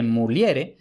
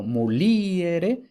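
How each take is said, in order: First: Muliere as mu-LYE-re, stress on E. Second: Muliere with a long stressed I, mu-LI-e-re; Muliere, I stressed and apart from E. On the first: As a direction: lean on the E of muliere, falling. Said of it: "la E es tónica". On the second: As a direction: draw out and lift the LI in Muliere. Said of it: "la I es tónica". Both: Shown as a demonstration.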